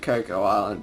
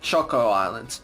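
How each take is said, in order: First: The first word begins with a 'k' sound. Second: The first word begins with a 'ch' sound. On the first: This is the speakers' own preferred way. "we pronounce it Coco Island because that sounds more like it" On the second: This is how some other people say it. "some people also pronounce it"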